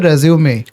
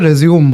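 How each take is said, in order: First: The word ends on a vowel sound. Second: The word ends on a consonant sound. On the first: The speaker calls it right. "लेकिन ये होता है रेज्यूमे। ... ये French शब्द है।" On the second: The speaker calls it wrong. "ये भी लोग गलत बोलते हैं, चलो लोग बोलते हैं रेज्यूम"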